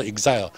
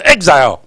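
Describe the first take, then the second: First: Exile said the Japanese way as "ik-zai-yo", with an added final o; katakana-style "exile", each syllable even and ending in a vowel; Japanese-style pronunciation. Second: Exile said the English way as "EK-zail", with no final vowel; "exile" in English, stress on the first syllable; English pronunciation. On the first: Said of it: "日本的读做exile". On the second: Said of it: "英语的读做exile". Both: Shown as a demonstration.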